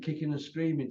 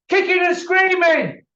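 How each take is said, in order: First: Said in the usual way. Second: Kicking and screaming yelled much higher and louder; furious shout. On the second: Real, not acted. Mocking the reluctant champion to the viewers, an angry shout. Repeats phrase, then shouts it.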